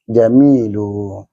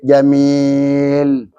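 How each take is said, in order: First: The word ends on a u vowel. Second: The word ends on the consonant l. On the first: The speaker calls it right. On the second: The speaker calls it wrong. "Tapi enggak lah macam wakaf tajwid. Jamil enggak lah kan"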